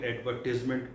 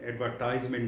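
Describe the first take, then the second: First: The third syllable is said with a short 'tiz'. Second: The third syllable is said with a long 'tize'. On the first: The speaker calls it right. "अगर ये noun हो गया तो फिर एडवर्टीजमेंट बोलना है" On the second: The speaker calls it wrong. "एडवर्टाइजमेंट नहीं बोलना"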